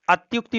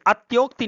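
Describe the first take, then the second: First: अत्युक्ति said with a short u, at-yuk-ti; teacher gives the right अत्युक्ति with a short u; correct form. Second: अत्योक्ति said with a long o, ot-yok-ti; teacher voices the wrong अत्योक्ति with o in the middle; wrong form. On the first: Hindi teacher corrects students, अत्युक्ति with a short u. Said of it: "अत्युक्ति होता है". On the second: Hindi teacher shows students the wrong spelling, अत्योक्ति with o. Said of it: "अत्योक्ति नहीं होता". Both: Shown as a demonstration.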